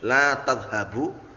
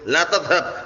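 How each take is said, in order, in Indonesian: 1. Kata kerjanya berakhir dengan vokal 'u' di akhir. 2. Kata kerjanya berakhir pada konsonan, tanpa vokal. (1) "la nafiyah enggak pengaruh sama sekali" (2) "la nahiyah membikin fi'il setelahnya menjadi majzum"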